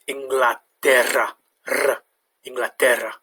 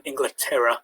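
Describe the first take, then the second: First: Inglaterra with a rolled double R; Inglaterra, trill the R. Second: Said in the usual way. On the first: Shown as a demonstration. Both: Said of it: "has a bit of a trilled sound".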